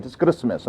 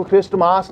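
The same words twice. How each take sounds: First: Christmas with a silent t: kris-mes; right pronunciation. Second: क्रिस्टमास with the t sounded: kris-t-maas; wrong pronunciation. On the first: Teacher correcting students, Christmas as kris-mes. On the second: Teacher showing students the wrong way, kris-t-maas. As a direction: sound the t in क्रिस्टमास, long final aa. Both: Shown as a demonstration. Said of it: "इसको क्रिस्टमास नहीं पढ़ते हैं".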